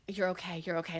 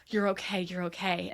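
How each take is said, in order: First: Softer and lower, gently soothing; calm someone down tenderly; reassuring. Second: Gently reassuring, fading softer. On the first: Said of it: "He is reassuring himself". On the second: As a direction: ease someone's fear gently. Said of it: "he's just like". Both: Retold or imitated.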